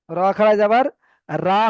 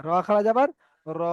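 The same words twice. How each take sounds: First: "রা" with an open aa; wrong open vowel. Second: "র" ending in a long rounded o; full-mouth rounded vowel. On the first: Teacher repeats the mistake for students, "রা" with open aa. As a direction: say the faulty wide "রা", not ro. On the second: Teacher shows students the correct "র", long rounded o. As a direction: hold the final "র" as ro, no aa. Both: Shown as a demonstration. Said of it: "রা হবে না".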